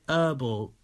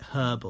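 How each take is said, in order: First: The h is dropped, American style. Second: The h is clearly pronounced at the start.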